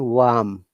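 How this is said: British accent, with the R silent. "British pronunciation"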